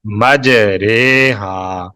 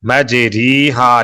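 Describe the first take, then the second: First: "مجرے ہا" very slowly as maj-RAY-haa; correct majhool reading. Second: "مجری ہا" as maj-REE-haa; long ee after the r in "مجری ہا"; written "ri" reading. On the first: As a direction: stretch a long ay after the r in "مجرے ہا". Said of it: "اسی طرح اس کا تلفظ کریں گے". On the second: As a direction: read "مجری ہا" as spelt, ree not ray. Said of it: "لکھا ہوا ہے". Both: Shown as a demonstration.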